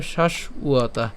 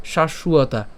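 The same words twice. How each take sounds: First: Slow "শাশ্বতা", broken as shash, uata; split pronunciation. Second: "শাশ্বতা" run together as shashuata; joined pronunciation. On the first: Teacher explains the b sound, slow split pronunciation. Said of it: "সেজন্য এর উচ্চারণ কেমন হবে?". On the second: Teacher shows it said all together, joined pronunciation. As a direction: link sh straight into ua in "শাশ্বতা". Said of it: "আর যদি একসাথে উচ্চারণ করি". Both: Shown as a demonstration.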